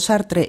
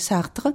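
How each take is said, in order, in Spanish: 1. El nombre se dice con sonidos españoles. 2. El nombre se dice con sonidos franceses. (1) "estoy diciendo Sartre" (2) "y no Mozart y Sartre"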